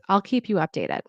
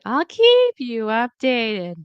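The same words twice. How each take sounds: First: The pitch stays level and falls at the end. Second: The pitch jumps up sharply on 'keep'. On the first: The speaker calls it right. "And there's a falling tone at the end" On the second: The speaker calls it wrong. "We don't need to go up"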